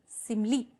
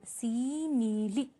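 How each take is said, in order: First: Said in the usual way. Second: "सीमिली" slowly stretched as see-mee-lee; syllable by syllable. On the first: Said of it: "देखिए". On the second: Shown as a demonstration. Teacher repeats for students, "सीमिली" slowly split in three syllables. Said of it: "यहाँ पे तीन syllable हो गए".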